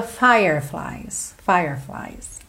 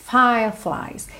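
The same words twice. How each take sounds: First: Slow "fireflies" with a strong R in "fire"; curled-tongue R. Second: Slow "Fireflies" as "fah-flies"; non-rhotic R. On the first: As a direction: curl the tongue in the middle of "fireflies". ("fireflies" com R enrolado) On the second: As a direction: drop the R in "Fireflies", tongue down. ("Fireflies" sem enrolar a língua) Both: Shown as a demonstration. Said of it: "Se você enrolar a língua".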